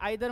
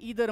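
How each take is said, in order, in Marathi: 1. हे British उच्चारात म्हटले आहे. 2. हे American उच्चारात म्हटले आहे. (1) "आयदर म्हणलं की ब्रिटिश लँग्वेज" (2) "इदर म्हणलं की अमेरिकन लँग्वेज"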